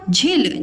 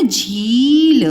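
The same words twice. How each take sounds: First: झील said as "jhil" with short i; wrong short vowel. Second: झील stretched to "jheeeel"; correct long vowel. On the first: Teacher rejects a wrong saying, short i in झील. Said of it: "झील नहीं बोलते हम". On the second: Teacher gives the right word, very long ee in झील. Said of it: "क्या बोलते हैं?". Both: Shown as a demonstration.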